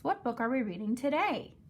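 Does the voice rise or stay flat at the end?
rise. The voice goes high at the end.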